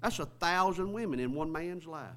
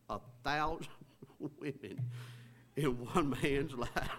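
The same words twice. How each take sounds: First: Said in the usual way. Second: Real laughter breaking up the words; laughing. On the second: Real, not acted. Preacher amazed at a thousand women in one man's life, laughing. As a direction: try to repeat it but keep cracking up. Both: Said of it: "can't even say that without laughing".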